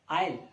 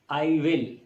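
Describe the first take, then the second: First: The words are shortened into one syllable. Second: Both words are said in full.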